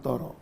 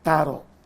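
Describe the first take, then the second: First: The t is heavy, with a rounded o vowel. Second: The t is thin, with an open a vowel. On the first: The speaker calls it wrong. "jangan toro" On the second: The speaker calls it right. "Jadi tadi itu alam taro"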